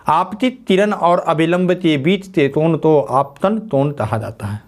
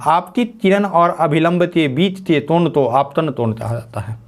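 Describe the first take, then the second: First: Same sentence again, slower and evenly spaced; slow it down so they can write it; slower repeat. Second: Said in the usual way. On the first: Shown as a demonstration. Teacher repeating the definition slower for students to copy. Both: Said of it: "लिख लीजिए".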